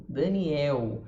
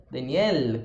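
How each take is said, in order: First: "Daniel" ending in a u sound, "Daniel-u"; Brazilian final L. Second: "Daniel" ending with a clear L, tongue touching the teeth; Portuguese L. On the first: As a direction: let the L of "Daniel" melt into u. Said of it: "em português a gente fala o som do L diferente". ("Daniel" com L final virando U) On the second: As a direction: finish "Daniel" on a full L. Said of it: "o português de Portugal falaria Daniel". ("Daniel" com L de Portugal, língua no dente) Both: Shown as a demonstration.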